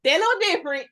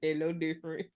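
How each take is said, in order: First: Louder, higher, little stressed; emphatic repeat. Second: Softer, lower muttered aside; half to herself, quietly. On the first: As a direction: punch the word little. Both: Real, not acted. Repeated remark on Aquarius men.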